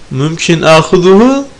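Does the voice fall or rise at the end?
rises. The voice rises on the last word. It asks whether taking it is allowed. "dersen alabilir miyim olur"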